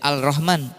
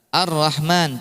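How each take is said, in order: First: The L is pronounced clearly before the R. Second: The L merges into a doubled R sound. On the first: The speaker calls it wrong. "tidak dibaca al-rahman" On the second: The speaker calls it right. "ar-rahman tuh"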